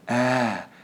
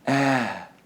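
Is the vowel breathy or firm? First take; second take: breathy; breathy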